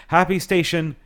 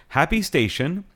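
No difference in how they are said.

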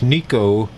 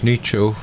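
First: The middle consonant is a hard 'k' sound. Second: The middle consonant is a 'ch' sound. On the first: The speaker calls it wrong. "A lot of people want to pronounce it Italianly as Nico" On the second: The speaker calls it right. "but it simply isn't that. It's Nicho"

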